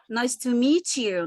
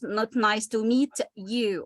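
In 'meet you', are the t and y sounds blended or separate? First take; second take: blended; separate. First: The t and y blend into a 'ch' sound. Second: The t and y are said as separate sounds. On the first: The speaker calls it right. "they affect one another. Okay, so this is linking" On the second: The speaker calls it wrong.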